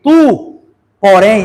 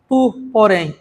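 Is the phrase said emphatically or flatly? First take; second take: emphatically; flatly. First: The phrase is said emphatically, with strong force. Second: The phrase is said flatly, without extra force. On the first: The listener's attention is being sharply called. The speaker calls it right. "ele está sendo mais enfático" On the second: It is a plain mention without calling attention. The speaker calls it wrong. "não é assim"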